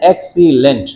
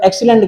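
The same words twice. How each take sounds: First: "एक्सीलेंट" split as ek-see-lent; "एक्सीलेंट" syllable by syllable, with small gaps; broken into syllables. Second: Said in the usual way. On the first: Shown as a demonstration. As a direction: sound out the three parts of "एक्सीलेंट". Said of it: "दो से ज्यादा आपके पास अल्फाज में syllable". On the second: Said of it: "जहां पर दो से ज्यादा".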